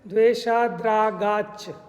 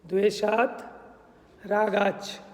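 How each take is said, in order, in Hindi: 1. दोनों शब्द 'd' की आवाज़ के साथ आपस में जुड़कर बोले जाते हैं। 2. दोनों शब्द 't' के साथ अलग-अलग बोले जाते हैं।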